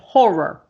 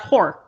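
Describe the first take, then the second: First: The word is said slowly with both syllables clear. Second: The word is said fast with syllables run together. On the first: The speaker calls it right. "We got to make sure we enunciate horror" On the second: The speaker calls it wrong. "not horror"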